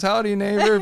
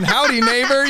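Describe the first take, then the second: First: 1 folksy greeting. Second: High, loud mock cheerful howdy; laughing through an exaggerated folksy greeting; hammed-up friendly. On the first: Retold or imitated. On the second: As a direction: ham up a folksy friendly neighbor. Mocking his new friendliness.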